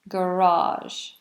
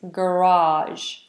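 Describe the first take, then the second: The two takes are said the same way.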